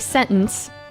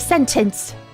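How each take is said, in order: First: The middle T is dropped, American style. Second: The middle T is clearly sounded, British style. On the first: "In American, we say sentence. There's no T" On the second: "Properly say the T sound in the middle"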